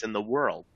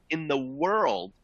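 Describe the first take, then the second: First: Said in the usual way. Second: "world" drawn out slowly on higher pitch; emphatic stress on world. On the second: Real, not acted. Presenter selling a rare train, "world" slow and emphatic. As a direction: stretch "world" high for emphasis.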